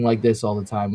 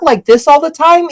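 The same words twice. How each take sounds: First: The voice is pitched low. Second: The voice is pitched high.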